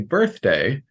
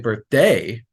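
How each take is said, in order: First: The stress is on the first syllable. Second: The stress is on the second syllable. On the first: The speaker calls it right. "I'm putting weight on birth" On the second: The speaker calls it wrong. "wait a minute, that's wrong"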